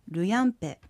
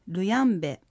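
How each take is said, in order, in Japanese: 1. 最後の音節はpの音で始まります。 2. 最後の音節はbの音で始まります。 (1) "雨という意味のルヤンペ" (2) "ルヤンベと発音しても構いません"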